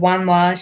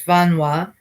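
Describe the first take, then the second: First: The word begins with a w sound. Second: The word begins with a v sound. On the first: This is the older dialect form. "Instead of Wanwa" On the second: This is the exilic dialect form. "she says Vanwa"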